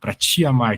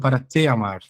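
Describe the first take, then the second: First: The word 'te' is said with an 'ee' vowel. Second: The word 'te' is said with an 'eh' vowel. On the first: "a gente fala esse ti" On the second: "o espanhol vai lá para te amar"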